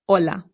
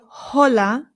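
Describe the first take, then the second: First: The word starts directly with the vowel sound. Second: The word starts with an audible H sound. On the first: The speaker calls it right. "the H in Spanish is always silent, it's just hola" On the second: The speaker calls it wrong. "we don't say hola"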